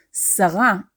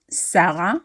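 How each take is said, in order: First: Sarah as "sa-RA"; last syllable stressed. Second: Sarah as "SA-ra"; first syllable stressed. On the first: Teacher correcting to the word for minister, Sarah stressed as "sa-RA". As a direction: land on the end of Sarah, "sa-RA". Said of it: "stressing the last syllable". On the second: Teacher showing the form not meant, Sarah stressed as "SA-ra". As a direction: put the weight up front in Sarah, "SA-ra". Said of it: "not Sarah". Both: Shown as a demonstration.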